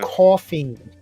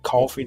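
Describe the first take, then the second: First: It is said with a New York accent. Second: It is said with a Southern US accent. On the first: The speaker calls it right. "No, it's coffee. Pronounce it. Enunciate, please" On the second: The speaker calls it wrong. "they say it like coffee down there"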